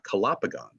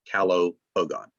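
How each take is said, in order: First: It is said as one word with one stress. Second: Each root, calo and pogon, is stressed separately. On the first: It is treated as a single Latin word. "not calopogon" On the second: The word's roots are kept apart. "I would tend to emphasize the roots"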